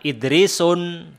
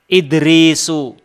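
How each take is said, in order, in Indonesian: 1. Nama itu berakhir dengan bunyi n tambahan. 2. Nama itu berakhir dengan vokal u biasa.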